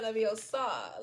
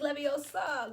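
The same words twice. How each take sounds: First: Leviosa drawn out with a swooping drop in pitch; mock mistaken pronunciation. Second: Leviosa drawn out slowly and pitched high; mock correcting pronunciation. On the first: Reader mocking the rejected spell word, Leviosa slow and swooping down. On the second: Reader playfully teaching the spell, Leviosa slow and high.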